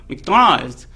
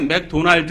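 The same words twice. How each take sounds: First: It is said with an American English accent. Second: It is said with a Korean accent. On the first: The speaker calls it wrong. "이 사람들은 맥도날드. 이렇게 발음을 이상하게 내요" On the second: The speaker calls it right. "우리의 맥도날드 이렇게 내야 되는데"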